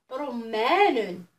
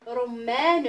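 First: Slow drawn word. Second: Said in the usual way. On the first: Shown as a demonstration. Teacher modelling a word for children, very slowly. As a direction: stretch رمان out very slowly. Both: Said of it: "نعاودو الحروف مع بعض".

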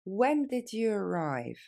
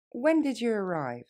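First: When did you arrive said slowly; slow and clear for the learner. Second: Faster. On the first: Teacher modelling for students, slow. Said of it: "Plus lentement". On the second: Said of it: "Plus rapidement". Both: Shown as a demonstration.

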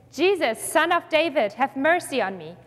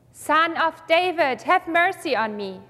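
First: Restrained, slightly raised calling out; mild shout. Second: Drawn-out, higher opening, restrained call; louder cry. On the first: Blind man calling to Jesus in a scripture reading, mild shout. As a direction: read it as an understated cry for mercy. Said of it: "he began to shout out". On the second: Blind man persisting after being hushed, more insistent mild shout. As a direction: read a more insistent plea without fully shouting. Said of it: "cried out even more loudly". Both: A narrator's reading.

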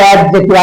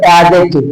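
First: অ্যাডজেক্টিভ with the d sounded, ad-jektiv; অ্যাডজেক্টিভ with an audible d before the j; common wrong pronunciation. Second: অ্যাডজেক্টিভ with a silent d, a-jektiv; অ্যাডজেক্টিভ gliding straight from a to j; correct pronunciation. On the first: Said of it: "সবাই বলে". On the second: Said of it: "আসলে হবে". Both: Shown as a demonstration.

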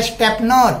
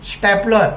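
First: स्टॅपनर with N replacing the L; pupils' misspelling. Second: स्टॅपलर with L, ending in "-lar"; corrected stapler. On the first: Teacher quoting pupils' written mistake, स्टॅपनर with a wrong N. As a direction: sound out स्टॅपनर, ending in "-nar". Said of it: "ते लिहितात काय?". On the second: Teacher correcting the written mistake, स्टॅपलर said with L. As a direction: sound out स्टॅपलर with L replacing N. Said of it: "नर नाही". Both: Shown as a demonstration.

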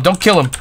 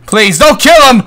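First: Said in the usual way. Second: Higher, louder plea; loud pleading. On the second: Real, not acted. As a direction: beg them to stop. Pleading as Viking is hit.

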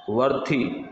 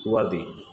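First: वर्थी said with a breathy th, the wrong way; mock wrong वर्थी; wrong pronunciation demo. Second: Teacher's correct वर्दी; correct pronunciation. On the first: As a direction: show the wrong वर्थी first. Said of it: "तो वर्थी नहीं होगा". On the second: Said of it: "ये वर्दी होगा". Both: Shown as a demonstration.

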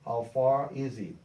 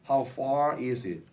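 First: Slow "How far is it?" with the weight on "far"; far stressed. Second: Very slow "How far is it?" with each word separated; slow model phrase. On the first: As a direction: lean on "far" slowly. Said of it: "그럼 far가 되겠죠". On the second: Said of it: "여기서 얼마나 먼가요". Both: Shown as a demonstration.

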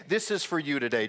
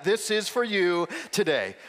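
First: Said in the usual way. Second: Louder, slow, each word landed; the pastor models the phrase to say to a neighbor, louder and slower; emphatic. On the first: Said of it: "would you do me a huge favor and say". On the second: Shown as a demonstration. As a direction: model it for the room, punching "for". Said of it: "Just tell your neighbor that".

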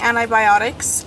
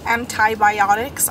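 First: "antibiotics" with the first t swallowed, like "ani-biotics"; fumbled pronunciation. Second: "antibiotics" slowly, with a clear first t; careful second attempt. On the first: Vlogger tripping over "antibiotics", first t lost. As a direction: stumble quickly through "antibiotics", dropping its first t. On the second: Vlogger retrying a hard word, "antibiotics" slow with clear t. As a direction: sound out "antibiotics" slowly, part by part. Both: Real, not acted. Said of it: "I cannot say that word".

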